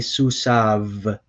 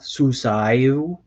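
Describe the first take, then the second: First: The word ends with a 'v' sound. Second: The word ends with a 'yu' sound. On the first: The speaker calls it right. "the yod here is technically silent" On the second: The speaker calls it wrong. "So it's not susayu. That's weird"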